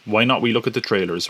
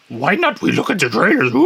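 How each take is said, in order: First: Said in the usual way. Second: High, silly creature croon ending in a hoot; hammed-up little alien voice, pitched up; Yoda. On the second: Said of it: "Was that Yoda speaking?".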